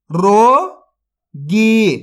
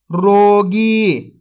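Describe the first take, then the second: First: रोगी drawn out very slowly, syllable by syllable; sounded out slowly. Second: Said in the usual way. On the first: Shown as a demonstration. Teacher sounds out a word for young readers, very slowly. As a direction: stretch रोगी out slowly for the kids. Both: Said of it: "तो मिलके बन जाएगा".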